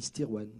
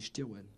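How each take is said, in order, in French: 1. Le nom se prononce à la française. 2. Le nom se prononce à la bretonne. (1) "si on prononce euh, Fran- François, on, on dit Stirwen" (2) "Si on prononce Breton, on dit Stirwen"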